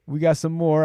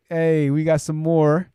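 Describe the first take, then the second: First: Said in the usual way. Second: Slow, stretched out; slow drawn out. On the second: Real, not acted. Host greeting incoming chat comments, slow and drawn out. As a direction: savour each word, slowly.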